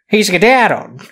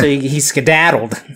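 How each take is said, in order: First: It is said in a put-on Scottish accent. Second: It is said in the speaker's usual accent.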